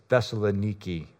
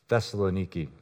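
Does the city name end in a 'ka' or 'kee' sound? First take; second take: kee; kee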